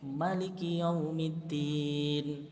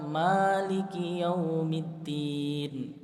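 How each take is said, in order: First: The first vowel of Maliki is short. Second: The first vowel of Maliki is long. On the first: "manya bisa pendek" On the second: "Ada juga yang baca"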